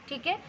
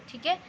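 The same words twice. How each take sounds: No difference in how they are said.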